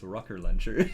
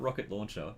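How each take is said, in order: First: The first word ends without a t sound. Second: The first word ends with a t sound. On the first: The speaker calls it right. "It's rocker launcher" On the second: The speaker calls it wrong. "It's not rocket launcher"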